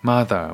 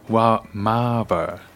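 First: The middle consonant is a th sound. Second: The middle consonant is a v sound.

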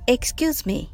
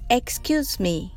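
Both takes have the same delivery.

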